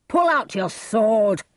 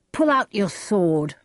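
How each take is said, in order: First: Slow, higher shouted challenge; shouting. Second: Restrained shouted challenge; crying out. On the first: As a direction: shout the demand, drawing out each word. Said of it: "he shouted again to Romeo". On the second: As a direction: call out a firm demand, only slightly raised. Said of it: "Tybalt cried". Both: A narrator's reading.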